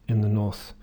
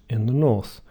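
No difference in how they are said.

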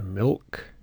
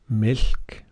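First: The L is dark and voiced. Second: The L is light and unvoiced. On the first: The speaker calls it right. "but milk" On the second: The speaker calls it wrong. "Not milk"

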